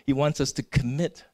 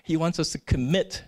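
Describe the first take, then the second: No difference in how they are said.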